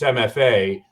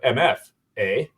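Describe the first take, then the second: First: It is said the American way. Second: It is said the Canadian way. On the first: "in the U S, it's" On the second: "north of the border in Canada, they call it"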